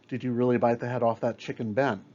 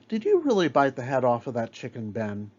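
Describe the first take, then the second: First: There is no pause before Ben. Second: There is a pause before Ben.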